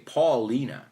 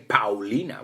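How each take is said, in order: First: The first syllable sounds like the name Paul. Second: The first syllable does not sound like Paul. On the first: The speaker calls it right. "We would say Paulina, right? Like the word, the name Paul" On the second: The speaker calls it wrong. "in English, we wouldn't say Paulina"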